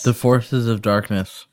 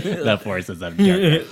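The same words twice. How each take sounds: First: Talking around an ice cube; words slurred by ice in mouth. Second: Mock mouthful of ice, slow; slow slurred ice cube imitation; imitating ice in mouth. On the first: Real, not acted. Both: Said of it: "the way you said that with an ice cube in your mouth".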